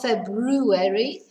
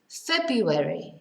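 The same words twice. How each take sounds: First: The R after the B is clearly sounded. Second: The R after the B is left out. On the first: The speaker calls it wrong. "It's not February" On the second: The speaker calls it right. "we don't pronounce the R"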